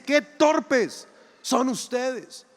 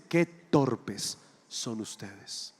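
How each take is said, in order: First: Higher, very slow, each word hammered; angry rebuke. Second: Slow low rebuke. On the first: Jesus annoyed at his doubting disciples, higher and very slow. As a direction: let "Qué torpes" ring out in annoyance. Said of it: "Jesús se enoja y les dice". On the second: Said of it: "Jesús los mira y les dice". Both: Acted.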